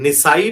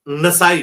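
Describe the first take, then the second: First: The first vowel sounds like 'i'. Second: The first vowel sounds like 'a'. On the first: "निसाई भी बोला जाता है" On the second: "और नसाई भी, ये दोनों दुरुस्त है"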